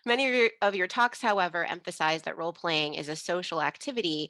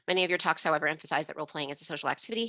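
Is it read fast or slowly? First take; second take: slowly; fast. First: It is read at a slow pace. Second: It is read at a fast pace.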